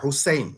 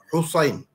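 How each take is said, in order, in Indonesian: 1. Bunyi s itu ringan dan biasa. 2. Bunyi s itu berat dan emfatik. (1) "Bukan Husain, bukan Sin" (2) "Kalau S H ni Sod, Sod"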